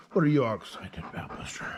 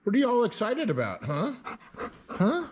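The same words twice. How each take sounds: First: Fast whispered question to the dog. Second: Fast, high excited questions; match the dog's excitement; high dog-talk voice. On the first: Asking the excited dog again, in a whisper. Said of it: "same words whispered". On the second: Asking the excited dog what's up, fast high dog talk. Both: Real, not acted.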